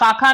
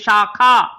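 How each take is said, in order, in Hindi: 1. शब्द की शुरुआत साधारण s ध्वनि से होती है। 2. शब्द की शुरुआत sh ध्वनि से होती है। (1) "शाखा नहीं होती" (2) "पेड़ की शाखा होती है"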